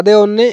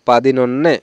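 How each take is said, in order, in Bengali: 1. এটি দুটি আলাদা অংশে বলা হয়। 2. এটি একটি জোড়া শব্দ হিসেবে বলা হয়। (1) "এটা কিন্তু সঠিক না" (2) "উচ্চারণটা আমরা সঠিক যখন করতে যাব"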